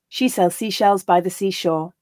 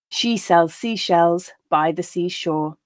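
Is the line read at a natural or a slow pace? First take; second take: natural; slow. First: The line is read at a natural pace. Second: The line is read at a slow pace. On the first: "then once at that more natural pace" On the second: "I'll read each line slowly"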